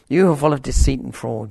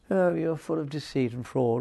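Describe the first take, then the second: First: It is said strongly and forcefully. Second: It is said mildly and sweetly.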